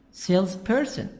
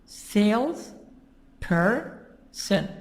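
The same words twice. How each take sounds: First: "Salesperson" as one word with SALES stressed; stress on first syllable. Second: "Sales person" broken into three parts, sales-per-son, with gaps; syllable by syllable. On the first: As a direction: put the stress at the beginning of "Salesperson". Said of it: "the stress is in the beginning". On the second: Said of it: "Three parts. Three syllables". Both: Shown as a demonstration.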